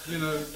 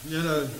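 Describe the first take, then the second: Both takes have the same delivery.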